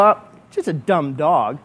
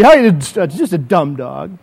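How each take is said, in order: First: Low, slow, unimpressed scoff; dismissive. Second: Slow, low shrug of a line; dismissive. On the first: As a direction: brush the gift off with disdain. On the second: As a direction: wave it off as nothing. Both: Pretend. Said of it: "and I go".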